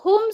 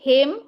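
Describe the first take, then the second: First: The vowel after h is u. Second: The vowel after h is i. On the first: This is the basic form of the word. "हुम से हिम" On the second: The letter before it has a kasra or a silent ya. "हुम से हिम"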